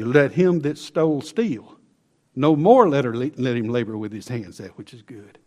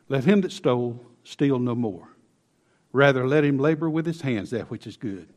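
First: The pause comes right after "steal." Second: The pause comes after "no more."

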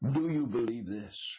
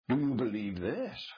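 First: The question is read plainly without extra emphasis. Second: The question is read with strong added emphasis.

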